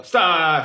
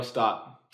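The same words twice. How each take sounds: First: Much louder shouted stop. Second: Said in the usual way. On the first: Shown as a demonstration. Magician asks spectator to yell louder, loud shout. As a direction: belt it out so he feels it. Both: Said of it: "I need for you to say it louder".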